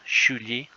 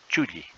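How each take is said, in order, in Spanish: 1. La primera consonante es aspirada. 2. La primera consonante es simple, sin aspiración. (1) "que suena de forma aspirada" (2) "en forma simple sería chulli"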